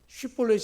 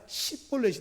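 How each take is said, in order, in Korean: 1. 이 단어는 sh 소리로 시작합니다. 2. 이 단어는 그냥 s 소리로 시작합니다. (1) "쉽볼렛 해봐라" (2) "이게 안 되는 겁니다"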